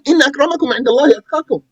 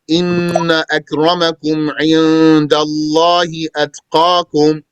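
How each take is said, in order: First: It is said very fast and carelessly. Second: It is said slowly in a careful voice.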